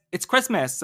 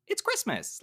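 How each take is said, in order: First: Bitchy. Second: Upbeat. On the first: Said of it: "it came as". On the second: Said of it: "trying to say very upbeat". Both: Retold or imitated.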